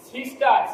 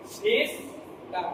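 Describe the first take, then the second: First: Said in the usual way. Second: sister slowly split into two separate syllables; sister drawn out softly, one syllable per breath; in two efforts. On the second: Shown as a demonstration. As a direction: break sister in two, pausing before the last syllable. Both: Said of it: "দুবারে বলতে হচ্ছে".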